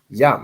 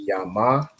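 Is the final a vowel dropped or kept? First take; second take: dropped; kept. First: One syllable, the final a is dropped. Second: Two syllables, the final a is kept. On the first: The letters are joined together. The speaker calls it right. "the a drops off at the end" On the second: The letters are not joined. The speaker calls it wrong. "instead of being yama"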